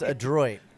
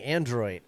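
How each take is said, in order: First: No n sound comes before the d. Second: An n sound comes before the d. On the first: The speaker calls it right. "It's Adroit" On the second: The speaker calls it wrong. "I kept saying Android, but he said there's no N"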